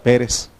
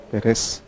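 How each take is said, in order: First: Pérez said as PE-res, stressed at the start; stress on first syllable. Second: Pérez said as pe-RES, stressed at the end; stress on last syllable. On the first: Teacher showing the accented form, Pérez stressed on the first syllable. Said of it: "no tiene acento en la E". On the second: Teacher correcting to the unaccented form, Pérez stressed on the last syllable. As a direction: put the weight on the second syllable of Pérez. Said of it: "Si no sería Pérez". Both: Shown as a demonstration.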